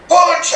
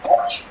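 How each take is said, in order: First: High, loud barked command; louder shout. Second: Mild mock shout of command; retold shout. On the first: Retold or imitated. Japanese teacher demands a real punch, loud shout. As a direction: bark it much harder. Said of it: "he shouted even louder". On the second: Japanese teacher commands the boy, mock shout. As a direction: snap out the order without much force. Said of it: "he shouted at me".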